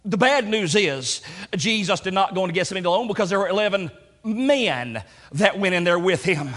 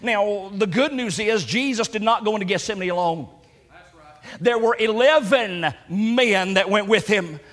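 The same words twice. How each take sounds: First: "bad" stressed in "the bad news is"; the word "bad" gets the weight. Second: "good" stressed in "the good news is"; the word "good" gets the weight. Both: Shown as a demonstration. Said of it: "let's change the emphasis on those words".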